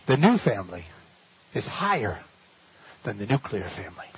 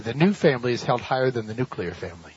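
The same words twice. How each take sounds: First: Slower, with pauses between phrases; preacher repeating the point so it sinks in; slow, spaced repeat. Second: Said in the usual way. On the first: Shown as a demonstration. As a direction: lay each phrase down deliberately. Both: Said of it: "Listen carefully".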